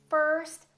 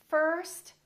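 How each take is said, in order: No difference in how they are said.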